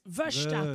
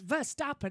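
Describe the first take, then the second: First: The first syllable sounds like 'veer'. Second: The first syllable sounds like 'ver'. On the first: The speaker calls it right. "it's Verstappen ... it would be V E E R" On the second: The speaker calls it wrong. "it's not Max Verstappen"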